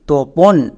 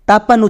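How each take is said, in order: First: The first vowel is an o sound. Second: The first vowel is an a sound. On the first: This is the Bengali pronunciation of the name. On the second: This is the English pronunciation of the name.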